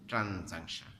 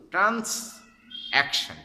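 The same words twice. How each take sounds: First: Said in the usual way. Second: "ট্রান্সঅ্যাকশন" slow, high and loud, split into trans + action; syllable-by-syllable. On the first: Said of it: "আমরা শুদ্ধ ভাষা বলি". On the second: Shown as a demonstration. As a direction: hammer out "ট্রান্সঅ্যাকশন" as two separate words, trans and action, for spelling. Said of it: "তাহলে বানান ভুল হবে না".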